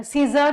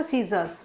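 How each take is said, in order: First: Said in the usual way. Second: "सीजर्स" with a final s, low and falling; lower, softer "सीजर्स" with the s kept; plural ending sounded. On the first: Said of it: "नहीं बोलते". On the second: Shown as a demonstration. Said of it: "सीजर नहीं बोलते".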